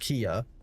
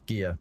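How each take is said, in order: First: The word begins with a hard K sound. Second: The word begins with a G sound. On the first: This is how it is said in the West. "That's what we say over in the West" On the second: This is how it is said in Korean. "you would pronounce it with a G sound in Korean"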